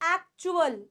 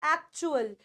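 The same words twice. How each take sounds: Both takes have the same delivery.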